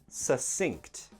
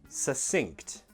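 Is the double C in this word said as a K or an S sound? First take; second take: S; S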